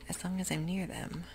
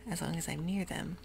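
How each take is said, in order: Both takes have the same delivery.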